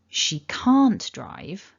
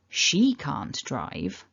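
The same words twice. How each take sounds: First: The stress falls on the word can't. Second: The stress falls on the word she. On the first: It denies a claim that she can drive. "If I stress can't" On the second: Someone else can drive. "stressing the she"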